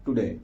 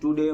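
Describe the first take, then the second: First: The first vowel is short and reduced. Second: The first vowel is a full, long 'too'. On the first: The speaker calls it right. "Lazy sound टुडे" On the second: The speaker calls it wrong. "टुडे बोलेंगे तो वो क्या हो जाएगा? टू adjective हो जाएगा"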